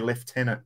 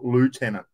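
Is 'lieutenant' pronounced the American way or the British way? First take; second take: British; American. First: It is pronounced the British way. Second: It is pronounced the American way. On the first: This is the form used in the Australian and British armies. The speaker calls it right. "In the Australian Army, we say lieutenant" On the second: This is the form used by the Navy and by Americans. The speaker calls it wrong. "not lieutenant. Okay, that's for the Navy and for the Americans"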